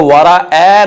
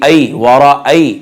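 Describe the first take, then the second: First: वराअ ending in open "ae", no glide; wrong flattened vowel. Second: वराअय slowly, ending in an "ay" diphthong; soft ay glide. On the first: Teacher showing what not to read, wrong flattened vowel. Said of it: "नहीं पढ़ेंगे". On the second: Teacher modelling the leen letter, soft ay glide. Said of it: "हरूफ लीन है". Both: Shown as a demonstration.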